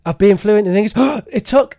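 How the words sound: It is rushed with a quick breath between phrases. The speaker calls it wrong. "It's like you can't wait, can't wait to get to the next thing"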